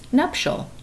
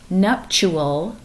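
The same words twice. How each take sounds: First: The ending does not rhyme with actual. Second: The ending rhymes with actual. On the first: The speaker calls it right. "it's nuptial" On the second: The speaker calls it wrong. "not nuptial like actual"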